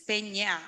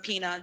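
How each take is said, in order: First: The middle consonant is an ny sound. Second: The middle consonant is a plain n sound. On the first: This is the real Spanish name. "it's an N with a little thing on top, and it's Peña" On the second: This is a simplified version for English speakers. "I have to tell everyone Pina, just get it over"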